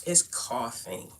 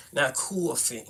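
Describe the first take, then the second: First: "coughing" said slowly with an open "coff" vowel; careful standard pronunciation. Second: "coughing" with a rounded, drawn-in "coo-uh" vowel; Brooklyn pronunciation. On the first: Correcting own Brooklyn word for viewers, careful "coughing". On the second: Showing viewers the wrong way, Brooklyn "coughing". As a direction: say "coughing" as Brooklyn "cuaw-fin". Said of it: "can't get rid of that Brooklyn accent". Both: Shown as a demonstration.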